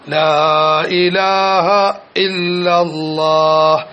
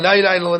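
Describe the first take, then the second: First: The phrase is said slowly and softly with pauses. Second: The phrase is rattled off quickly without pauses. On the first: The speaker calls it right. "ചെറിയ ശബ്ദത്തിൽ നിർത്തി Chellan" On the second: The speaker calls it wrong. "ഇങ്ങനെയല്ല"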